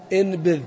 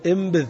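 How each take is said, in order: First: انبذ with a clear n before b, marked wrong; انبذ said as inbidh, nasal n kept; wrong pronunciation. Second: انبذ with the n turned to m, imbidh; انبذ with a clear m sound; correct pronunciation. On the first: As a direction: say انبذ with n, the mistaken way. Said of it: "خطأ". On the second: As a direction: say انبذ as the Arabs do, with m before b. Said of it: "العرب ما تنطقها إلا انبذ بالميم". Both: Shown as a demonstration.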